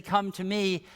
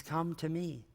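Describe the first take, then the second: First: Said in the usual way. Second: Softly voiced invitation, hushed; gentle near-whisper. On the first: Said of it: "we hear Jesus say". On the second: Jesus invites us today, hushed and gentle. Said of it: "he still whispers it to us today".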